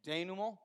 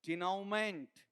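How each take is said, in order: First: The word ends with a 'mo' sound. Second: The word ends with a 'ment' sound. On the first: The speaker calls it right. "इसका उच्चारण बताओ क्या है" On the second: The speaker calls it wrong. "अगर simply मैं पढ़ाऊं तो लोग क्या पढ़ेंगे"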